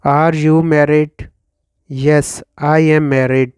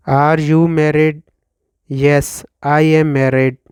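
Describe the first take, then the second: No difference in how they are said.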